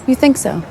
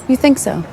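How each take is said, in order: Both takes have the same delivery.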